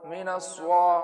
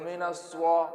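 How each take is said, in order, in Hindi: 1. s ध्वनि के बाद w-glide आता है। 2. s ध्वनि के बाद w-glide आता है।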